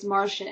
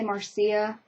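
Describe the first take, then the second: First: The name does not end like Lucia. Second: The name ends like the name Lucia. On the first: The speaker says it this way in their head. "it's Marcia in my brain" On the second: Other people say it this way. "some people say Marcia, uh, and it kind of fits because there's like Lucia"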